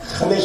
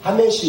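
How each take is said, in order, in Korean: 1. 첫 자음은 목에서 거칠게 긁히는 소리예요. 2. 첫 자음은 부드럽고 가벼운 h예요. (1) "그러니까 하메시 해야 되거든요" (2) "이걸 만약에 이 발음으로 하메시 이러면은 못 알아들어요"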